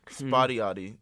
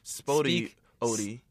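First: The second word starts with a y sound. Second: The second word starts with a vowel sound.

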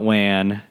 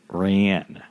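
First: The word begins with a W sound. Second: The word begins with an R sound. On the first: The speaker calls it wrong. "R words with a W sound ... it's not Wan" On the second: The speaker calls it right. "it's Ran"

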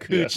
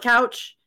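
First: The vowel sounds like 'oo'. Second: The vowel sounds like 'ow'. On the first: The speaker calls it right. "Cooch is a trip" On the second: The speaker calls it wrong. "you call it couch, and everybody looks at you funny"

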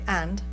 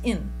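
First: The word is said fully, with a clear vowel. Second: The word is reduced to a short 'in' sound. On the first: It sounds formal. The speaker calls it wrong. "if you say and, it sounds formal to us" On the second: It sounds natural and casual. The speaker calls it right. "Because it's just in"

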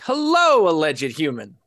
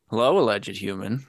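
First: It is said with lively, high energy. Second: It is said flatly, with low energy. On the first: This is the usual cheerful opening. "So ordinarily, you open the show with something like" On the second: The host seems tired or unenthusiastic today. "And this time you opened it with"

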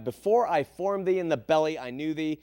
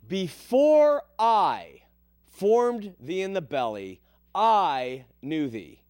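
First: The word 'I' is said without strong stress. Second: The word 'I' is said with strong stress.

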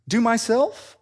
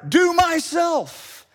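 First: It sounds like a hesitant, asking request. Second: It sounds like a firm, judging demand.

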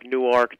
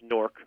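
First: Newark is said the Delaware way, as New-ark. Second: Newark is said the New Jersey way, as Nork.

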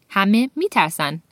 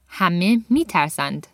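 First: The final D sound is dropped. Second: The final D sound is pronounced. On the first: It is the everyday conversational form. "in conversation, that last D sound would get dropped" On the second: It is the formal, poetic form. "she's using formal conjugation here"

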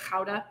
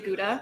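First: It is said with a Dutch pronunciation. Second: It is said with a Michigan pronunciation.

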